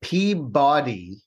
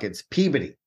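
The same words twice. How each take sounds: First: "Peabody" slowly as PEA-BODY; "Peabody" as two full words, pea and body; spelled-out pronunciation. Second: "Peabody" squashed to PEE-buh-dee; New England "Peabody", middle vowel swallowed; New England pronunciation. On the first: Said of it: "but in New England talk". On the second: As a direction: say "Peabody" with an unstressed "buddy" ending. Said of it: "in New England talk". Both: Shown as a demonstration.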